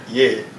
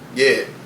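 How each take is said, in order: First: It is said with lively, varied pitch. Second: It is said in a flat monotone. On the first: "and I just be like" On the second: "he's so monotone to just be like"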